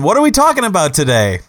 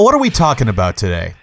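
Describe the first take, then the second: First: The question is asked in an upbeat, cheerful tone. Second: The question is asked in a subdued, serious tone. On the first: The topic is expected to be fun. "Let's have some fun" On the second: The topic is expected to be heavy. "let me shift my tone"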